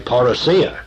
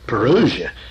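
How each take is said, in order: First: The stress falls on the last syllable. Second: The stress falls before the last syllable. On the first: This is the Greek word. "put the emphasis upon the last syllable where I feel it should be" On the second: This is the English dictionary form. "the English form that you can find in the dictionary"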